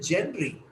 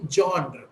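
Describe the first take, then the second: First: The word ends with an 'ee' sound. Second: The word ends without an 'ee' sound. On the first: The speaker calls it wrong. "She will say Genry. But is it Genry?" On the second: The speaker calls it right. "It's actually genre"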